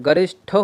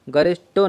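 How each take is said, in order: First: गरिष्ठो with a breath after "ṭ"; correct pronunciation. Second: गरिष्ठो with hard "ṭo", no breath; wrong pronunciation. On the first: Teacher repeating the correct word, गरिष्ठो with aspirated "ṭho". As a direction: say गरिष्ठो as garish-tho, aspirated. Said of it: "गरिष्ठो होता है". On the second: Teacher contrasting the wrong word, गरिष्ठो with unaspirated "ṭo". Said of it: "गरिष्ठो नहीं होता है". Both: Shown as a demonstration.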